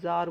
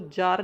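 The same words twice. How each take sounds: First: The word begins with a 'z' sound. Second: The word begins with a 'j' sound. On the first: The speaker calls it right. "अब यहाँ पे नुक्ता लग रहा है, ... जार बोलेंगे" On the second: The speaker calls it wrong. "इसको जार नहीं बोलेंगे"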